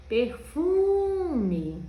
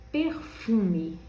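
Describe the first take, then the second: First: "Perfume" with a long, high, loud "fu"; stretched stressed syllable. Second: Said in the usual way. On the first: Shown as a demonstration. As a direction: hold the middle of "Perfume": "perfuuume". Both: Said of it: "O fu".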